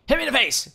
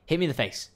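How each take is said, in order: First: High, loud demand; insistent shouted dare. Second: Said in the usual way. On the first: Pretend. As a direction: yell it as an escalated challenge. Repeated dare, at its peak.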